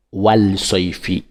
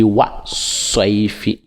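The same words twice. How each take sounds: First: "wal soifi" with the l sounded; wrong form. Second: "wa soifi" with no l, s doubled; correct form. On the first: Teacher showing the mistake, l kept. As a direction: pronounce the l before "soifi". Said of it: "On dit pas". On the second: Teacher giving the right reading, l silent. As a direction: drop the l, go straight to "soifi". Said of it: "On dit". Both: Shown as a demonstration.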